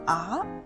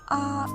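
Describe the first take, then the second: First: The pitch rises toward the end. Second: The pitch stays high and level. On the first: "rises, like a voice going up at the end of a question" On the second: "is flat, like a high steady note"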